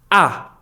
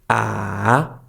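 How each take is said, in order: First: The pitch is short and sharp. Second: The pitch dips down, then rises again. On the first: "is very sharp" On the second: "goes down and then up again"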